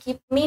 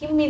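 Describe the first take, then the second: First: Both words are said fully and separately. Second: The two words run together as 'gimme'. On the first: "গিভ মি না বলে" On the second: "একটু contraction করে ছোট করে"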